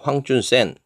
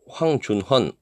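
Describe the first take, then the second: First: The name ends with a Chinese-style 'sen' sound. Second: The name ends with a Korean-style 'heon' sound. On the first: This follows the name's original country's reading. "그쪽 발음대로" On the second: This is the local reading of the characters. "우리 발음으로는"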